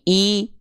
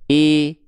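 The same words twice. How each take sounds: First: The vowel is a clear, high i sound. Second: The vowel leans toward an e sound. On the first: The speaker calls it right. "tapi I, I, maka angkat bagian tengah lidah" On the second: The speaker calls it wrong. "biar vokal I-nya nggak miring-miring ke vokal E"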